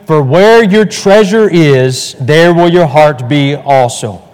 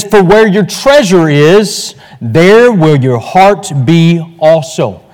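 First: Slow unison recitation with the congregation; reading aloud together. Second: Measured, solemn verse read slowly; slow scripture reading. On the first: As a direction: lead the room through the verse in chorus. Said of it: "Let's read that aloud together, shall we?". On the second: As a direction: read the verse slowly, weighing each word. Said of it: "Let's read that aloud together". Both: Shown as a demonstration.

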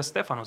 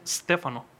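First: Said in the usual way. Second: STEFANO begun on a long hissed S, no E before it; correct pronunciation. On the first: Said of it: "mi nombre no se pronuncia". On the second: Shown as a demonstration. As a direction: hold the initial S of STEFANO, then say the rest. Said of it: "se pronuncia Stefano".

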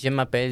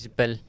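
First: Said in the usual way. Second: Je m'appelle squashed into "j'mpel"; slurred abbreviation. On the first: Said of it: "en francés que decís". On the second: Shown as a demonstration. Showing colloquial French shortcuts, je m'appelle slurred to "j'mpel". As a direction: run je m'appelle together, swallowing the middle vowels. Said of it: "sus propios slangs o sus propias abreviaturas".

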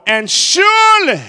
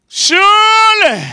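First: Surely lifted high and loud; ringing preacher's surely; drawn-out surely. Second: Surely held long, much higher and louder; soaring surely. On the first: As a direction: swell up on surely. Climax of the psalm. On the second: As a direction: stretch surely out slowly to the peak. Repeated, higher and slower. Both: Acted.

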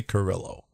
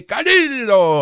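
First: Said in the usual way. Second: "Carrillo" high, slow, with a tapped accent; put-on native accent. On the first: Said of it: "I say Carrillo". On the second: Shown as a demonstration. Host mocks the other side's way, exaggerated native accent. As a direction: stretch out an accented "ka-REE-do". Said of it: "You say Carrillo".

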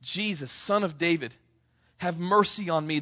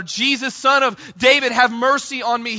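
First: Said in the usual way. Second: Loud, high pleading shout; shouting even louder. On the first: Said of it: "quieter retelling of the cry". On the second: Retold or imitated. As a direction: call it out over the crowd. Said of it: "he shouts out even louder".

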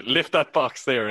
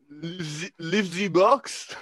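First: Said in the usual way. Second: A dubious, German-tinged attempt at French; French accent. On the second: Shown as a demonstration. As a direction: put on a halting French accent. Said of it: "in a French accent".

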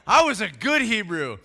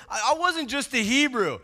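First: Loud start, "good" weighted proudly; stress on GOOD. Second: "wasn't just" leaned on as a setup; stress on WASN'T JUST. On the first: Preacher voicing Paul outdoing ordinary Hebrews, stressing "good". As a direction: boast it, leaning on "good". Second half of Paul's contrast. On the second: Preacher voicing Paul's credentials, stressing "wasn't just". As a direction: push "wasn't just", leaving the contrast to come. First half of Paul's contrast. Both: Retold or imitated.

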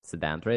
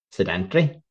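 First: "Sedentary" said SED-en-tary, stress first; "Sedentary" as SED-en-teh-ree, four syllables. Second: "Sedentary" said se-DAN-tree, stress on DAN; "Sedentary" as se-DEN-try, three syllables; sedentary with stress on second syllable. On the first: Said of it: "is that not how you say it?". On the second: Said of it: "correct you on the sedentary". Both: Shown as a demonstration.

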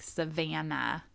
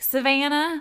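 First: "Savannah" said softer and slow with a flat American V; quiet slow American "Savannah"; plain American Savannah. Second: "Savannah" high and loud in a Spanish accent. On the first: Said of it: "I'm like". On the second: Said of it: "With the accent". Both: Shown as a demonstration.

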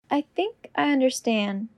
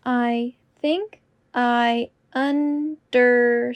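First: Said in the usual way. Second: Slow and deliberate. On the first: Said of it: "repetition drill, normal take". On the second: Shown as a demonstration. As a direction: say it slowly and clearly. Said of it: "repetition drill, slowed take".

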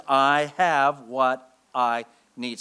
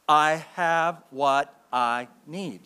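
First: Very slow, firm; slow declaration. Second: Very slow so the church can follow; call to repeat. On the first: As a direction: shove back with each word. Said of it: "you can shove back with those five words". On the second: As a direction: lead the congregation word by word. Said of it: "Say it with me, church". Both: Shown as a demonstration.

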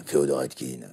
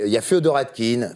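First: Very deep, softer imitation of a voice actor; Feodor Atkine. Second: Said in the usual way. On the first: Shown as a demonstration. Guest imitates a famous dubbing actor for the hosts, deep-voiced impersonation. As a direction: drop right down into his low register. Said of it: "on le reconnaît".

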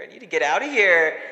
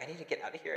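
First: Louder urgent repeat; the panic boils over into a louder cry. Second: Softer, muttered to herself; quiet panic. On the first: Same words, now louder. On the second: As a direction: say it under her breath, scared. Trapped, quoting panicked self. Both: Retold or imitated.

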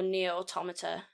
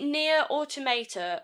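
First: Automata said as au-TOM-a-ta; alternative pronunciation. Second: Automata said as auto-MAY-ta; alternative pronunciation. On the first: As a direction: stress the TOM in Automata, short vowels after. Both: Shown as a demonstration. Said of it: "before I say this wrong".

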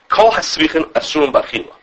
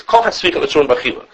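First: Called out like a quoted ruling; quoting the Ram with a raised voice; proclaimed quote. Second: Said in the usual way. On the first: Shown as a demonstration. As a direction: declaim the Ram's words. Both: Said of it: "that's how he, he says".

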